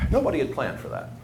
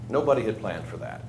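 First: Said in the usual way. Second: Softer and lower, let it sink in; a hushed rueful echo of the line; quiet echo. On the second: Real, not acted. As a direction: repeat it under your breath to yourself. Repeats the line for effect.

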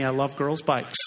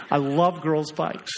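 First: Said in the usual way. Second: Slow, insistent, leaning on "love"; stress on love. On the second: Shown as a demonstration. Pastor reassuring the girls in church, slow stress on "love". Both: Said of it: "girls, don't write me".

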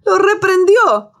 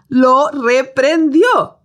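First: Reprendió stressed high and slow; emphatic rebuke. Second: Reprendió drawn out very slowly, falling; slow repeated rebuke. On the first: Preacher stresses reprendió to the congregation, emphatic. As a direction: lean hard on reprendió like scolding a child. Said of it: "como si el viento fuera su niño". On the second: Preacher repeats reprendió for the church, slowly. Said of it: "Como reprendes a tu perro". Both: Shown as a demonstration.

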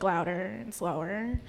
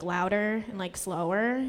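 First: Slowed way down, spelled out; slow and drawn out. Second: Said in the usual way. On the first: Shown as a demonstration. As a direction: stretch every word slowly. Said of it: "repeat things for her, like, louder and slower". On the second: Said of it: "I have to repeat things".

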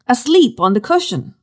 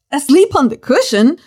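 First: Said in the usual way. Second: Higher, incredulous echo of the verse; mock disbelief. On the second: Preacher mocking the sleeping Jesus in disbelief. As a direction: repeat it as if you can't believe it.

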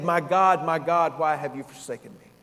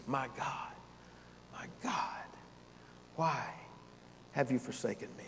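First: Said in the usual way. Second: Breathy hushed whisper, much softer; a near-silent whispered cry. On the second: Acted. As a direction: barely voice it, as if overcome. Same cry re-quoted hushed.

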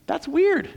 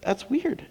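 First: High mock-puzzled weird. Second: Said in the usual way. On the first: Shown as a demonstration.

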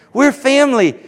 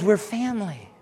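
First: Higher and louder, ringing out; loud proclamation. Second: Quiet first statement. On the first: Pastor to congregation, repeating it as a loud proclamation. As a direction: proclaim it to the whole room. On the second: Pastor to congregation, quietly stating it first. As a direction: drop it down before the call. Repeated church declaration. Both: Acted.

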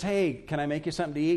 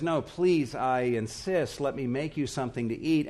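First: Quick, offhand polite offer; casual offer. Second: Mildly pleading host, leaning on "please"; insistent offer. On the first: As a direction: toss off the offer without pressing. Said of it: "they didn't really want to do this". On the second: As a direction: press the guest to accept. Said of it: "they won't hardly take no for an answer". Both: Acted.

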